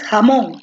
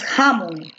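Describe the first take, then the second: First: The stress is on the last syllable. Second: The stress is on the first syllable. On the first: The speaker calls it right. "tú dices jamón" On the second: The speaker calls it wrong. "tú no dices jamón"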